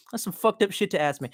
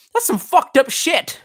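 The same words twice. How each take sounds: First: Said in the usual way. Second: Mock offended.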